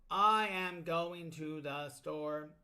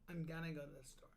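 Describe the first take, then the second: First: It is said stiffly, word by word. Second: It is said smoothly, words run together.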